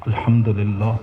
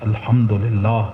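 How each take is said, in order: Both takes have the same delivery.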